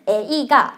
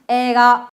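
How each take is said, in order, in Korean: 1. 첫 음절은 모음 두 개로 발음돼요. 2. 첫 음절은 길게 늘어지는 모음 하나예요. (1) "에이가 이렇게 읽지 않고" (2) "좀 끌어주거든요"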